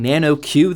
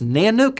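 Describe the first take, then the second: First: The name ends with a separate 'cue' sound. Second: The name ends with a short 'ook' sound. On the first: The speaker calls it wrong. "I was saying Nano Q the entire stream" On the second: The speaker calls it right. "got told towards the end that it's Nanook"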